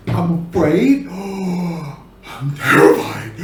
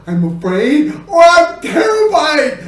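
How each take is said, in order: First: Low, gasping, slow terror; gasp, then draw out the fear under your breath; hushed fear. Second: Escalating fear. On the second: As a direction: burst out on "I'm terrified". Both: Shown as a demonstration. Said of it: "the expressions gotta change".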